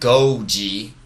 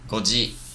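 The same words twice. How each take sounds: First: The first vowel is held long. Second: The first vowel is kept short. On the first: The speaker calls it wrong. "Don't make that a long vowel" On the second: The speaker calls it right. "but just goji"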